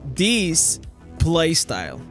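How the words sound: The words are pronounced carefully and distinctly. Speech recognition can understand it. The speaker calls it right. "to make like the A I completely understand my playstyle, I had to say"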